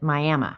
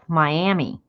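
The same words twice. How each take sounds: First: It is said the way Oklahoma says it. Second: It is said the way Florida says it. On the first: It names the town in Oklahoma. "In Oklahoma, they pronounce it Miami" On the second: It names the city in Florida. "the Florida one calls itself Miami"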